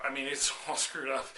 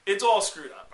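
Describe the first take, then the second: First: Laughing through it's all screwed up; laughing dude doctor. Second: Louder blurt of it's all screwed up; loud dude doctor. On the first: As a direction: chuckle while repeating the bad news. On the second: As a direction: blurt out the bad news like a careless surfer doctor. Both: Retold or imitated. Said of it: "was like".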